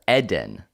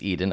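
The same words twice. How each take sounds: First: The name begins with a short 'eh' sound. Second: The name begins with a long 'ee' sound. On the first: This is the form the family prefers. "they want uh, me to say Eden" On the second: This is the usual English form of the name. "in English, it's Eden, of course"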